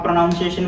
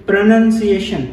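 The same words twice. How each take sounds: First: प्रोनाउंसिएशन said as pro-NOUN-see-ay-shun, with "noun" in the middle; the common mistake, प्रोनाउंसिएशन with an "ow" like pronounce; wrong pronunciation. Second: प्रोनाउंसिएशन said as pro-nun-see-AY-shun, with a short "nun" and no "noun"; correct pronunciation. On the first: Teacher showing students the usual wrong प्रोनाउंसिएशन. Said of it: "this is wrong". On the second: Teacher showing students the right way to say प्रोनाउंसिएशन. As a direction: say प्रोनाउंसिएशन cleanly as pronun-ciation. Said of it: "ये सही correct इसकी प्रोनाउंसिएशन है". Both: Shown as a demonstration.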